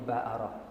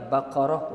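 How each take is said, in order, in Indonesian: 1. Huruf tengah itu hamzah. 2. Huruf tengah itu q tebal dari tenggorokan. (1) "orang Mesir ni Baqarah jadi Ba'arah" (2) "Yang tepatnya Baqarah huruf Qaf tu"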